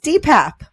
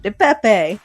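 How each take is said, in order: First: The name is said with two syllables, ending in 'p'. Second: The name is said with three syllables, ending in 'ee'. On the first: The speaker calls it right. "the correct pronunciation of his name is" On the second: The speaker calls it wrong. "people like me calling him"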